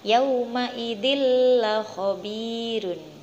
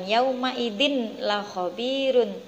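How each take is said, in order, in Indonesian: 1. Huruf n melebur sepenuhnya ke dalam l setelahnya. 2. Huruf n dibaca jelas sebelum l. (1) "tapi yang benar adalah yauma idzil la khabirun" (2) "Bukan yauma idzin la khabirun"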